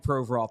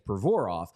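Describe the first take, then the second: First: The name is said the anglicized English way. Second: The name is said the original Russian way. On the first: This is the easier form everyone uses. "just call me Provorov because that's what everybody calls me anyway" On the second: This is the traditional form of the name. "the way you're supposed to say his name is Provorov"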